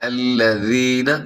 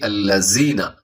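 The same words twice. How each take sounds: First: The middle consonant is a soft th sound. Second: The middle consonant is a hard z sound. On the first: The speaker calls it right. "नरमी से" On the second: The speaker calls it wrong. "ना कि"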